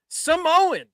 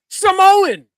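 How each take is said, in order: First: Mock scream. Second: Sudden loud commentator yell; Cole's shout. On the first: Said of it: "Michael Cole screams". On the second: Retold or imitated. Podcaster mimicking the commentator's call, shouting. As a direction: belt it like a ringside announcer. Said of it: "and Michael Cole goes".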